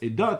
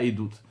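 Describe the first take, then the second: First: The final vowel sounds like 'o'. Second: The final vowel sounds like 'oo'. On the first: The speaker calls it right. "ça se prononce eidot" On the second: The speaker calls it wrong. "et pas eidout"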